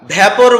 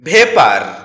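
First: The first vowel sounds like the vowel in cat. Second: The first vowel sounds like the vowel in day. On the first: The speaker calls it wrong. "এটাকে আমরা ভ্যাপর বলে থাকি" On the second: The speaker calls it right. "যার সঠিক উচ্চারণ হচ্ছে ভেপার"

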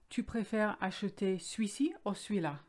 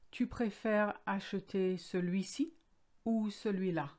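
First: Celui-ci and celui-là are shortened. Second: Celui-ci and celui-là are pronounced in full. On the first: This is the familiar, everyday form. "Familiar, the pronunciation will change and will shorten celui-ci and celui-là" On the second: This is the formal, correct form. "The correct way is"

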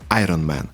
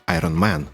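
First: The stress is on the first syllable. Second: The stress is on a later syllable. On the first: This is how English speakers stress it. "в англійській мові здебільшого наголошується перший склад" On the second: This is how Ukrainian speakers stress it. "у нас наголоси традиційно кочують подалі"

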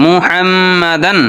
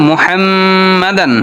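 No difference in how they are said.

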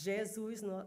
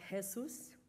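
First: The J has the Portuguese sound. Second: The J has a non-Portuguese sound. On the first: The speaker calls it right. "the J in Jesus is Jesus" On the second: The speaker calls it wrong. "not Jesus"

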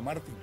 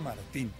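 First: The stress is on the first syllable. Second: The stress is on the last syllable. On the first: The name is said the American way. The speaker calls it wrong. "su apellido no era Martín" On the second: The name is said the Spanish way. The speaker calls it right. "su apellido era Martín"

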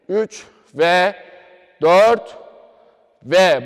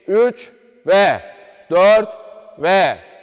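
First: The counting is slow and drawn out. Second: The counting is quicker and flows together. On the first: It is slowed down so beginners can get used to it. "burayı bilerek yavaş söylüyorum" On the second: This is how the steps normally follow one another. "biraz daha böyle akışkan"

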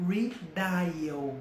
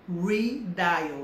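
First: The word is pronounced with English sounds. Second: The word is pronounced with English sounds.

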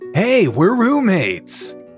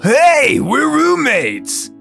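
First: The character voice is toned down and more restrained. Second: The character voice is broad and fully exaggerated. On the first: The speaker calls it right. "Maybe that dialed back like 80%" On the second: The speaker calls it wrong. "Am I going full Carl?"

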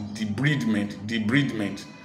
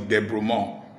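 First: The word is pronounced with English sounds. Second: The word is pronounced with French sounds. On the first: "if you pronounce it in the English form" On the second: "the French word is debridement"

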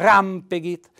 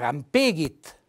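First: The stress is on the first syllable. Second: The stress is on the middle syllable. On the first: The speaker calls it right. "è fondamentale mettere l'accento tonico sulla A" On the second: The speaker calls it wrong. "Se lo mettessi sulla E diventerebbe"

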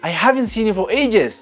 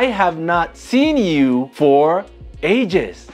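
First: 'Have not' is contracted into one syllable. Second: 'Have not' is said as two full words.

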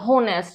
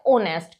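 First: The word begins with an h sound. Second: The word begins with a vowel, h silent. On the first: The speaker calls it wrong. "बच्चे और मैंने सुना है होनेस्ट बोलते हैं... जबकि ये गलत प्रोनाउंसिएशन है" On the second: The speaker calls it right. "वो होता है ओनेस्ट"

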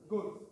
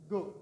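No difference in how they are said.

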